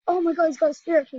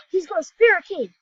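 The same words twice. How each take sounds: First: Higher, louder and fast; thrilled. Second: Gasps, then a higher, louder line; sudden thrilled discovery; excited gasp. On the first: Telling viewers his teammate got a spirit key, thrilled and fast. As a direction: blurt it out in a rush of excitement. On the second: Gasping to viewers at his teammate's spirit key, excited. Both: Real, not acted.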